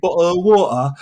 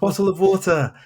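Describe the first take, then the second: First: Exaggerated London "bottle of water", louder and higher; hammed-up London accent, dropping the t's. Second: High-pitched pupil's request, carefully said; "bottle of water" high, with the t's sounded; imitated students. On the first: Shown as a demonstration. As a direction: lay the London accent on thick. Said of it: "getting rid of certain London parts". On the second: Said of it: "students at my school".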